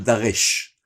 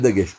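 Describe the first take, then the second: First: The middle consonant is a throaty r-like sound. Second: The middle consonant is a hard g sound. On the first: The speaker calls it right. "on dit le Daresh" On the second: The speaker calls it wrong. "on ne dit pas le Dagesh"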